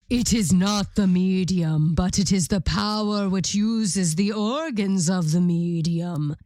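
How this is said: It is read in a put-on deep voice.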